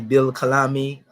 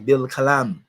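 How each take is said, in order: First: The final vowel after the M is pronounced. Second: The word ends on the M, with no vowel. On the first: "you can pronounce it if you want to" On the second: "make it silent"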